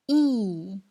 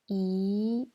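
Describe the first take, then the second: First: The pitch falls sharply from high to low. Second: The pitch rises from middle to high. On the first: "C'est le quatrième ton" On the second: "C'est le deuxième ton"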